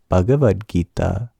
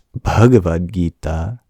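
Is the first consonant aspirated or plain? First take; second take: plain; aspirated. First: The first consonant is a plain b. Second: The first consonant is an aspirated bh. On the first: The speaker calls it wrong. "It's not" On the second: The speaker calls it right. "It is an aspirated voiced labial consonant"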